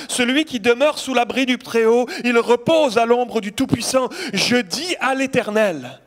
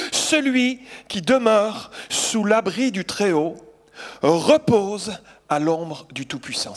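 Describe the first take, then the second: First: Louder, proclaiming the verse; proclaiming aloud. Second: Slow, solemn scripture reading. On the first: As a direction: declare it to the congregation. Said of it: "C'est le psaume quatre-vingt-onze". (proclamation à voix forte) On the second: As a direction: draw out each phrase of the psalm. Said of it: "voici la parole que j'aimerais vous apporter". (lecture lente et solennelle du psaume) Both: Shown as a demonstration.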